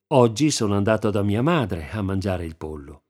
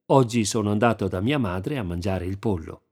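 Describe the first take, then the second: First: The stress is on "madre". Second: The stress is on "pollo".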